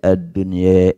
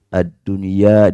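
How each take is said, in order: First: The final vowel is tilted slightly toward e. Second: The final vowel is a pure open a.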